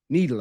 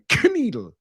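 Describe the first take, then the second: First: The name starts with an n sound, no k. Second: The name starts with a hard k sound. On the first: "silent K" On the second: "a straight up hard K like Kneedle"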